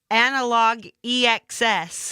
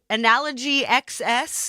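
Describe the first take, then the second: First: It is said as analog, then E X S. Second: It is said as analogy, then X S. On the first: The speaker calls it right. "It has the pronunciation right here" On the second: The speaker calls it wrong. "is what I'm going to call it"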